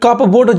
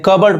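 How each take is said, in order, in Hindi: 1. p की आवाज़ बोली जाती है। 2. p की आवाज़ साइलेंट है। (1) "गलत हो जाएगा" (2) "पी साइलेंट है"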